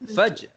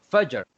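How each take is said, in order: First: The final r sound is dropped. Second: The final r sound is clearly heard. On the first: The speaker calls it wrong. "Yang pertama" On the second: The speaker calls it right. "Seolah-olahnya kita sebut juga huruf ra dekat belakang itu"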